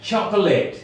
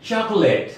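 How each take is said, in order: Both takes have the same delivery.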